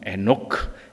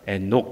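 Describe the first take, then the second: First: The name ends with a full released 'keu' syllable. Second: The name ends with a clipped unreleased k. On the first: The speaker calls it right. "원래 발음은 에노크" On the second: The speaker calls it wrong. "기억이 아니고"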